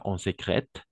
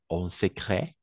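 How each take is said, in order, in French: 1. Le T final se prononce. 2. Le T final ne se prononce pas. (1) "pas en secrète" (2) "Le T à la fin, on ne prononce pas"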